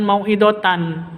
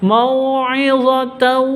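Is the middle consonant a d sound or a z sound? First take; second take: d sound; z sound. First: The middle consonant is a d sound. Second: The middle consonant is a z sound. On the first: The speaker calls it wrong. "bukan mau'idatan" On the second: The speaker calls it right. "tapi mau'izatan"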